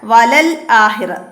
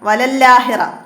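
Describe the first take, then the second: First: A single l, then a glottal stop before akhira. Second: A doubled l runs straight into akhira. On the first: The speaker calls it right. "ലാമിന് സുക്കൂന് അടുത്ത അക്ഷരം ആ അംസ" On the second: The speaker calls it wrong. "അങ്ങനെ തെറ്റ് വരാം"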